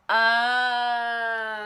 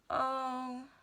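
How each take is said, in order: First: It sounds like sudden understanding. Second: It sounds sad.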